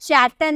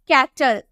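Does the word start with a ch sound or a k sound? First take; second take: ch; k. First: The word starts with a ch sound. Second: The word starts with a k sound. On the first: The speaker calls it wrong. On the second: The speaker calls it right.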